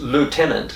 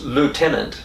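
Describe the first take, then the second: First: It is said with an American pronunciation. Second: The same.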